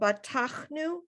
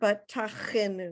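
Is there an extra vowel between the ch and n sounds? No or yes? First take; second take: no; yes. First: There is no vowel between ch and n. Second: An extra vowel comes between ch and n. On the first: The speaker calls it right. "You don't have to pronounce the the it" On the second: The speaker calls it wrong. "It's not batachenu"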